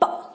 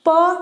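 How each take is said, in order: First: A bare consonant with no vowel after it. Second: A full syllable with a vowel after it. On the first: The speaker calls it right. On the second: The speaker calls it wrong.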